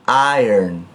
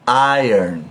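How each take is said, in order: Both takes have the same delivery.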